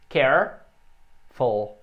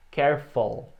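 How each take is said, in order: First: "Careful" drawn out very slowly, vowel stretched; careful vowel demo. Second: "careful" said normally after the slow take; careful vowel demo. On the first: ("Careful" bem devagar, vogal alongada) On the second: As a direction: say "careful" at natural pace. ("careful" em ritmo normal) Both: Shown as a demonstration. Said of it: "som da vogal".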